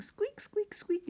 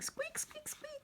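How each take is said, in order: First: High squeaky chorus of mice; mice squeaking. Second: Very high, soft squeaky mouse; tiny mouse squeaking home; mouse squeaks. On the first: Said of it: "all the little mice are saying". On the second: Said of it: "And she's saying". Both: Acted.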